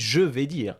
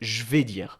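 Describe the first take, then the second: First: The vowel of 'je' is clearly pronounced. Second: The vowel of 'je' is dropped. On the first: "Tu n'as pas dit je vais dire à l'oral" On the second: "Tu as dit je vais dire"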